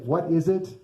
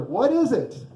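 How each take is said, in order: First: Said in the usual way. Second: "What is it?" pitched high on "is", then falling; "is" raised high in a wondering "What is it?"; puzzled question. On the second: Acted. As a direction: ask "What is it?" in acted bafflement, leaning on "is". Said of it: "they ask each other".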